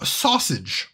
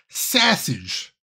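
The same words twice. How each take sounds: First: It is said in a plain, neutral accent. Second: It is said in a Chicago accent.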